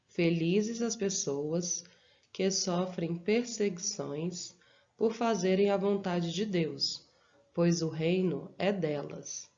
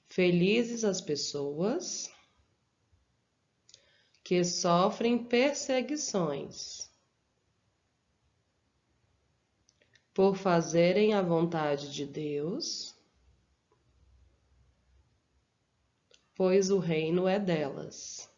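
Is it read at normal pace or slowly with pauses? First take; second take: normal pace; slowly. First: It is read at a normal pace. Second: It is read slowly with pauses.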